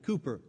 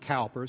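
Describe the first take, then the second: First: The first syllable rhymes with 'too'. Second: The first syllable rhymes with 'how'. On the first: The speaker calls it right. "where they pronounced it Cooper" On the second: The speaker calls it wrong. "It's not Cowper"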